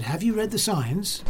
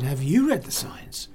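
First: Higher-pitched accusing question; mildly acted officious question, pitched up; retold challenge. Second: "you" stressed, turning the question back; firm retold comeback, leaning on "you"; retort stressing YOU. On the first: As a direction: imitate a man challenging a cyclist. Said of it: "He said". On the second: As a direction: throw it back with weight on "you". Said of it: "I said".

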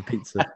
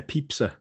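First: Said in the usual way. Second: Pizza said as pipsa, with ps in the middle; imitating pipsa. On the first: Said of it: "instead of a pizza". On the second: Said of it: "a pizza instead of a pizza".

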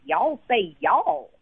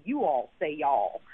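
First: "y'all" drawn out slow and teasing; y'all said slowly. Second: "you all say y'all" slow, low and measured. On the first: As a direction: stretch "y'all" as a mocking taunt. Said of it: "Well, they say "you all say y'all". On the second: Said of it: "Well, they say". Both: Shown as a demonstration.

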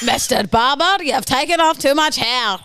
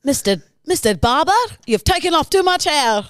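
First: Drifting into Scottish; Scottish accent. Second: Higher, mock German complaint; a lightly hammed German accent. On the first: Acted. The German attempt lands as Scottish. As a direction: sounds Scottish rather than German. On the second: An unhappy German man complains to his barber, German accent. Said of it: "that was your German".

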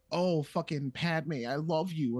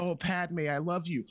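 First: Whiny lovesick Anakin. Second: Lovesick words, slightly higher, edging toward obsession; unhinged Anakin. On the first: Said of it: "instead of just having him be like". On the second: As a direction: set up the creepy ex-boyfriend. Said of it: "have him be like". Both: Retold or imitated.

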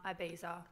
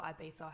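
First: "Ibiza" ending in a buzzed -za. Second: "Ibiza" with a lisped Spanish th for the z. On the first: Listing trip stops to a friend, "Ibiza" with a z. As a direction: say "Ibiza" with a z sound, eye-BEE-za. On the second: Offering a friend the other version, "Ibiza" with th. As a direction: say "Ibiza" as eye-BEE-tha. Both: Shown as a demonstration. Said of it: "however the fuck you say it".

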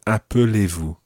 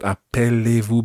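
First: "appelez-vous" with a schwa before "lez"; weak middle E. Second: "appelez-vous" with the middle E sounded as in appelle; full E in appelez. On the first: Teacher modelling the word for a learner, "appelez-vous" with weak middle E. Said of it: "watch in the middle of that word". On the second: Teacher showing the class what to avoid, "appelez-vous" with open "pell". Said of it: "It's not". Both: Shown as a demonstration.

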